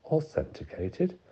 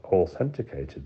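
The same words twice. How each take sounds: First: Authenticated? said slow with a high rising end; incredulous echo. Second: Said in the usual way. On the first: A narrator's reading. Lawyer throwing the warden's word back, slow and incredulous.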